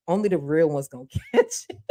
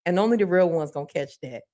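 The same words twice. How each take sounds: First: Knowing chuckle mid-line; laughing. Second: Said in the usual way. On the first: Real, not acted. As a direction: laugh breaks into "catch it". Repeats line, now laughing.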